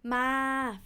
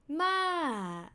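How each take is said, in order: First: The syllable is said on a level mid pitch. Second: The syllable's pitch falls from high to low. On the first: It means to come. "flat tone means to come" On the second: It means grandma. "falling tone means grandma"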